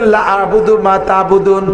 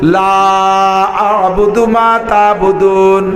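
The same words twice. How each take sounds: First: The vowel in 'la' is cut short. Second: The vowel in 'la' is drawn out long. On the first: The meaning changes into something else. The speaker calls it wrong. "লারে টানেন নাই, লা একালিফ টানার দরকার ছিল" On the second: It says: I do not worship what you worship. The speaker calls it right. "কিভাবে শুদ্ধ কাফিরুন আগে পড়ি"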